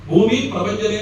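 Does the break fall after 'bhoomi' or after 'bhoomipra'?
after bhoomi. The break falls after 'bhoomi'. The speaker calls it right.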